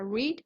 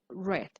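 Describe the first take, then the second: First: It is said as the present-tense form, like 'reed'. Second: It is said as the past-tense form, like 'red'. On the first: The action happens now or habitually. "En presente se, se pronuncia read" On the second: The action happened in the past. "en pasado se pronuncia read"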